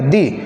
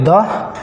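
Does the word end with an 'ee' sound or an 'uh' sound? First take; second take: ee; uh. First: The vowel is a long 'ee' sound. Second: The vowel is a short 'uh' sound. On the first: "स्वर के ध्वनि के साथ हो तो टी एच ई को क्या बोलेंगे दी" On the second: "फिलहाल बोलिए द"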